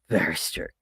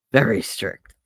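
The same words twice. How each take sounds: First: Stern nun, lower and softer. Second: Stern nun. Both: Shown as a demonstration.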